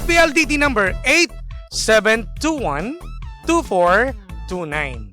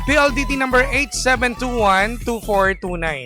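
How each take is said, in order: First: The digits are read slowly. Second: The digits are read quickly. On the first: The speaker calls it right. "bagalan natin" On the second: The speaker calls it wrong. "Mabilis? Ay, sorry"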